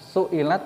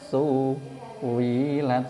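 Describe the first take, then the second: First: The middle sound is a glottal stop. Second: The middle sound is a w sound. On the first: "Ketika ada hamzah kasroh" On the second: "maka ya diganti wawu"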